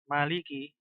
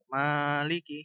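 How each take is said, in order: First: The first vowel is short and quick. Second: The first vowel is drawn out long. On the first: "meme-nya dibaca pendek, nggak ada matnya gitu. Jadi cepat" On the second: "model membaca panjang mim ... ma-nya ditekan"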